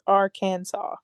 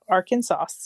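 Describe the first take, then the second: First: The name ends in 'saw' with a silent s. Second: The name ends in 'sas' like Kansas. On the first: The speaker calls it right. "The correct pron- pronunciation is" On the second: The speaker calls it wrong.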